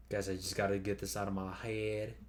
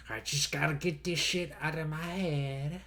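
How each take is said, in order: First: Said in the usual way. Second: Higher nasal-free nerdy voice; nerd voice. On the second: Acted. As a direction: blurt it like a geeky nerd. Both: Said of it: "I did the nerd voice accidentally".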